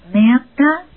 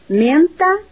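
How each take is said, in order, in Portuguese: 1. A voz soa abafada com o nariz tapado. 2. A voz soa clara com o nariz livre. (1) "com o nariz tapado" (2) "Com o nariz normal"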